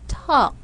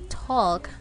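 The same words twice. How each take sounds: First: The L sound is left out of the word. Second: The L sound is pronounced in the word. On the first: The speaker calls it right. "but we say walk, talk. Letter L is silent" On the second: The speaker calls it wrong. "we're not going to say walk or talk"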